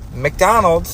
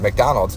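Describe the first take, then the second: First: The word is said in a raised, sharper voice. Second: The word is said in a calm, normal voice. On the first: The person answering is lying. "raises her voice" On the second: The person answering is being honest. "instead of"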